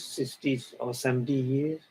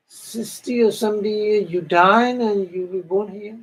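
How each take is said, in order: First: Said in the usual way. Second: Higher, louder echo in amazement; disbelieving echo. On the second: Retold or imitated. Celestial echoing her friend's lifespan, amazed and high. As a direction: repeat the number as if it's hardly a life.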